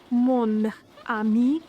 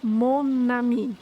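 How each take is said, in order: First: Slow "mon ami" with a break between the words; separated. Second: Slow "mon ami" run together as "mo-nami"; linked. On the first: Teacher showing French words first kept apart. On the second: Teacher showing French liaison joining the words. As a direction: link the n onto ami. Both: Shown as a demonstration. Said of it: "Em francês".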